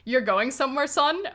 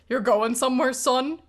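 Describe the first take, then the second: First: It is read in the reader's ordinary voice. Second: It is read in a put-on character voice.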